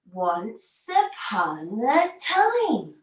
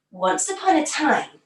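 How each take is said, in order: First: Very slow, drawn-out storybook opening; slow story opening. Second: Said in the usual way. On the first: Shown as a demonstration. Teacher opening the story for kids, very slow. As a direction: stretch each word like opening a magic book. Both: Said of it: "all our stories start in the same way".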